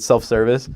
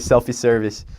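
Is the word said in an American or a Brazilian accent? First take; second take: American; Brazilian. First: It is said in an American accent. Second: It is said in a Brazilian accent. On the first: "our American word" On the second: "they say it with their Brazilian accent"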